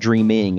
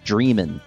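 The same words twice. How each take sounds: First: The word ends with a full -ing sound. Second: The word ends in -in with the g dropped. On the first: The speaker calls it wrong. "It's not dreaming" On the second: The speaker calls it right. "especially with a little apostrophe at the end"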